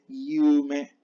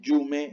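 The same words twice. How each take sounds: First: The y sound is soft, like an i. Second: The y sound is hard and strong. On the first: The speaker calls it right. "es yume. Yumen suave" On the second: The speaker calls it wrong. "No es yume"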